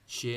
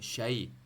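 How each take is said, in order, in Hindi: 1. स्वर एक ही सादा 'e' ध्वनि है। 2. स्वर 'a' से 'i' की ओर सरकता है। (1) "शे नहीं है" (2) "शे नहीं है शाई"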